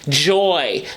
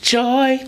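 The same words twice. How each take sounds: First: The word begins with a voiced j sound. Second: The word begins with a soft ch sound. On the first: "so many articulatory moves in the production of the word" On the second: "change it to a ch"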